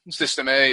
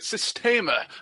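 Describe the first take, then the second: First: It is said as 'system' plus the letter A. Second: It is said as one Italian-sounding word. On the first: It sounds plain and local. "rather than System A" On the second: It sounds exotic and foreign. "as if it's Italian or something"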